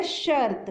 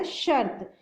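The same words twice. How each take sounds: First: शर्त drawn out slowly on the r; teacher's slow शर्त, r held; r sound in शर्त shown. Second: Said in the usual way. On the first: Shown as a demonstration. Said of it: "श के बाद र की sound आ रही है". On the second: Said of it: "तो बच्चों ये बन गया".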